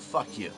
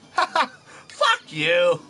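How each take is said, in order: First: It is said flatly, calmly, with no emphasis. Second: It is said in a light, joking tone. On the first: The speaker is just explaining something. "I just said that in a tone of voice that you could tell I was trying to explain something. It didn't have any emphasis to it at all" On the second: The speaker is only joking. "Now you can tell I'm I'm messing around"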